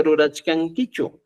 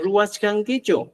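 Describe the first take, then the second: First: "rurachkankichu" slowly, keeping the middle R; slow down "rurachkankichu", every syllable distinct; standard form with R. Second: "ruwachkankichu" higher and slow, W for R; Cusco pronunciation. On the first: Teacher modelling the question, "rurachkankichu" with R. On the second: Teacher showing Cusco question, "ruwachkankichu" with W. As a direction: glide a W through "ruwachkankichu". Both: Shown as a demonstration. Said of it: "en Cusco decimos".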